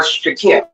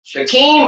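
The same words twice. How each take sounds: First: Shakim with a short vowel in the last syllable; Shakim said as "sha-KIM". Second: Shakim with a long "ee" in the last syllable; Shakim said as "sha-KEEM". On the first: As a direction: say Shakim to rhyme with "him". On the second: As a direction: say Shakim to rhyme with "team". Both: Shown as a demonstration. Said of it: "I don't know the last part of his name".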